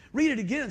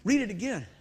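First: Insistent repeat. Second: Said in the usual way. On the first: Retold or imitated.

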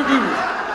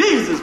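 First: "Jesus" muffled by a downturned mouth, first syllable swallowed; comic failed frown on "Jesus". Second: Loud "Jesus" with a clear open "ee"; "Jesus" grinned out loud and clear; smiling Jesus. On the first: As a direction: say "Jesus" through an exaggerated frown. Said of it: "can't say with a frown". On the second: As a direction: say "Jesus" through a wide smile. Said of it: "You gotta say". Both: Shown as a demonstration.

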